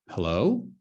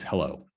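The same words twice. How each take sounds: First: "Hello?" rising at the end; questioning hello. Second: Said in the usual way. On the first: Shown as a demonstration. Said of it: "it's kinda like a question mark". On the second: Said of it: "kinda like a question mark".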